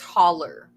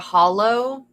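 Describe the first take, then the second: First: The word ends in an 'er' sound. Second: The word ends in a clear 'oh' sound. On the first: This is the local Kentucky dialect form. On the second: This is the standard pronunciation.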